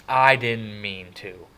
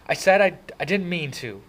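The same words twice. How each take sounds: First: Slow, loud sneering repeat; mocking shout. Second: High, loud near tears; frustrated. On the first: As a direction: throw his words back. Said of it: "Derry shouted". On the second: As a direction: hold back angry tears. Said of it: "hot tears of anger and frustration". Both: A narrator's reading.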